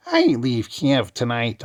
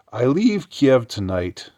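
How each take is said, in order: First: High, slow witchy cackle; cackling witch voice. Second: Said in the usual way. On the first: Shown as a demonstration. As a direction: read it like a wicked witch. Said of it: "the cackling witch that she is". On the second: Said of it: "I'll read it like a the cackling witch that she is".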